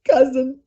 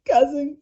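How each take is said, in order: First: It is said in a sad tone. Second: It is said in a sad tone.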